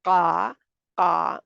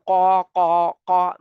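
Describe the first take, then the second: First: The sound is made with open, unrounded lips. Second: The sound is made with rounded lips. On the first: The speaker calls it right. "मुँह खुला है" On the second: The speaker calls it wrong. "मुँह मेरा बिल्कुल गोल है, ऐसे नहीं करना"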